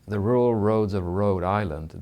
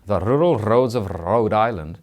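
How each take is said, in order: First: It is said in a plain accent with soft Rs. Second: It is said in a Scottish accent with strong Rs.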